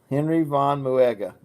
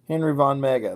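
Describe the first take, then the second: First: The last name sounds like 'moo-ega', three syllables. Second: The last name sounds like 'mega', two syllables. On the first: This is the pronunciation others suggested. "So it's Muega" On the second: This is how the speaker usually says it. "I say Von Mega"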